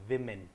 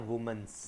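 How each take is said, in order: First: विमेन said "wi-men", short i; correct pronunciation. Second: वुमेन्स said "woo-mens" with an s; wrong pronunciation. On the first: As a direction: start विमेन with "wi". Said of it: "ठीक है, विमेन". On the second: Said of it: "वुमेन्स तो बिल्कुल नहीं होगा". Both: Shown as a demonstration.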